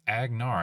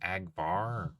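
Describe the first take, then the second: First: The middle consonant is an n sound. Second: The middle consonant is a v sound. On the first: The speaker calls it right. "It's Agnar" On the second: The speaker calls it wrong. "I kept thinking it was Agvar"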